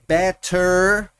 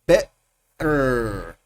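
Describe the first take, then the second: First: The T is clearly pronounced. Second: The T is replaced by a glottal stop. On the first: "como sonando la T" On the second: "el T glotal"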